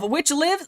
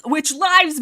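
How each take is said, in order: First: "lives" said like the verb, rhyming with "gives"; "lives" with the vowel of "give"; lives mispronounced. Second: "lives" said as the plural of life; "lives" with the vowel of "five"; lives corrected. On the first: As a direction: say "lives" with a short i. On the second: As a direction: say "lives" with a long i, rhyming with "hives". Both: Real, not acted. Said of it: "Sorry, I'm fighting for my life".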